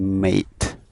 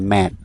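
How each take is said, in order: First: The vowel is a long 'ay' sound. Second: The vowel is a short 'a' sound. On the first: The speaker calls it right. "យើងអានសំឡេង A ... យើងអានថា mate" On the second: The speaker calls it wrong. "កុំអានថា mat"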